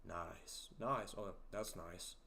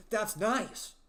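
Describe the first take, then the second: First: Low, soft, understated "nice"; low-key approval. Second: Loud, high-pitched mock excitement; exaggerated enthusiasm. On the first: Retold or imitated. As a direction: approve quietly, so understated it could pass for sarcasm. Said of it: "you talk slow and, uh, you know, your low voice". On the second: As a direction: overdo the delight, belting it out so nobody hears sarcasm. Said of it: "what do you want me to say?".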